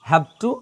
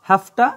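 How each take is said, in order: First: Both words are said separately and in full. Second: The words are run together as hafta.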